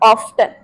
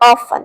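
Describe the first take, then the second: First: The t sound is pronounced. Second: The t sound is silent. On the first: The speaker calls it wrong. "Not ऑफ्टन, गलत हो जाएगा" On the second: The speaker calls it right. "जो टी word है उसको आपको silent mode पे भेज देना है"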